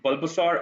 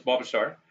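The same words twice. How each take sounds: First: "Bulbasaur" with the L pronounced; sounded L. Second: "Bulbasaur" with the L silent. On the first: Gamer asking chat about the name, "Bulbasaur" with the L sounded. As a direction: say "Bulbasaur" as bull-ba-saur, L clearly sounded. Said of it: "Is the L to be pronounced like". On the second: Gamer offering chat the other option, "Bulbasaur" with silent L. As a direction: say "Bulbasaur" as bah-ba-saur, no L sound. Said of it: "the L will always stay silent". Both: Shown as a demonstration.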